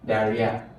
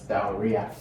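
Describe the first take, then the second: First: The word is said without an O sound. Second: The word is said with an O sound. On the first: The speaker calls it right. "So the O is actually silent. So diarrhea" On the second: The speaker calls it wrong. "not diarrhea"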